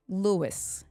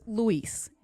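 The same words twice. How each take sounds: First: Lewis said as LOO-iss, English style; right name. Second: Luis said as loo-EES, Spanish style; wrong name. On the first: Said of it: "not Luis". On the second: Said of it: "Lewis, not Luis". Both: Shown as a demonstration.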